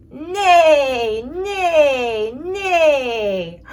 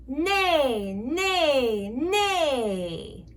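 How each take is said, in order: First: Big whinnying neigh, loud and crying out; loud horse neigh. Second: Said in the usual way. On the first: Pretend. Mom shows child a horse, loud whinnying neigh. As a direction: call it out like an excited horse.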